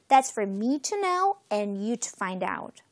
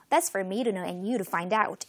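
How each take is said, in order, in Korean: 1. 이 문장은 천천히 말해요. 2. 이 문장은 빨리 말해요. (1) "천천히 한번 해볼게요" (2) "조금 빨리 읽으면 이렇게 읽어요"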